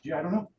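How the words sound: It is said in a light, friendly tone. The listener is kept engaged in the conversation. The speaker calls it right. "your first one to come back with to lighten it"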